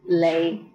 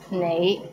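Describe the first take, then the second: First: The word begins with an l sound. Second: The word begins with an n sound. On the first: The speaker calls it wrong. "in Hong Kong, many people pronounce it as lei" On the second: The speaker calls it right. "The right way to pronounce it is nei"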